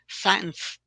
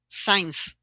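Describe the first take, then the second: First: The word sounds like 'science'. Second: The same.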